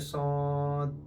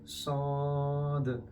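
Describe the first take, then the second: First: The final consonant stops abruptly without a bounce. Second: The final consonant ends with a slight echoing bounce. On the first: The speaker calls it wrong. "don't say sod" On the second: The speaker calls it right. "say sod. The is the aqua sound, which is kalkala"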